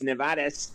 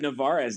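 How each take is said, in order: First: The name is said with a Spanish pronunciation. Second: The name is said with an English pronunciation. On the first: "the Spanish side of it" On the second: "I always use Navarez"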